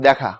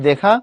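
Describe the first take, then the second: First: The first vowel is a slightly altered e sound. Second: The first vowel is a plain e sound. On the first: This is how the word is actually read. "পড়ার সময় পড়ি" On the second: This is how the word is spelled. "লেখার সময় লিখি"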